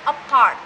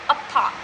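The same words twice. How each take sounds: First: The r sound is clearly pronounced, American style. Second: The r sound is silent, British style. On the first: "in U S pronunciation ... you can hear R" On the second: "using U K's pronunciation ... you cannot hear R"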